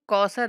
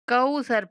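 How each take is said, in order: First: The middle consonant is sharp and hissing. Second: The middle consonant is soft and gentle. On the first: The speaker calls it wrong. "कौसर नहीं पढ़ेंगे" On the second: The speaker calls it right. "कौसर पढ़ेंगे"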